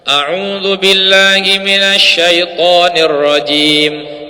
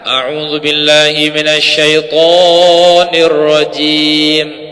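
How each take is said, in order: First: The vowel after the T is held briefly. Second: The vowel after the T is drawn out long. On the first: The speaker calls it right. "Cukup seukuran satu alif dua harakat" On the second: The speaker calls it wrong. "Tapi kalau dilapaskan"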